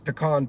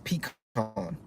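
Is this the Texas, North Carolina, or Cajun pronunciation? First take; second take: Texas; North Carolina. First: It is said the Texas way. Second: It is said the North Carolina way.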